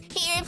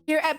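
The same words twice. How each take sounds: First: It is said in a put-on character voice. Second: It is said in the speaker's normal voice. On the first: The speaker calls it right. "What was my Nash voice?" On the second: The speaker calls it wrong. "Oh, sorry. I forgot about the Nash voice"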